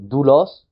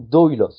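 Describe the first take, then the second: First: The first vowel is a single 'oo' sound. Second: The first vowel is 'o' gliding into 'u'. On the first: "des fois, je vais le prononcer OU" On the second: "des fois, je vais le prononcer O U"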